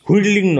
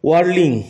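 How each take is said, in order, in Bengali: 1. শব্দটি শ্বাসযুক্ত 'hw' ধ্বনি দিয়ে শুরু হয়। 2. শব্দটি সাধারণ 'w' ধ্বনি দিয়ে শুরু হয়। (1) "নয়" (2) "ওয়ার্লিং উচ্চারণ"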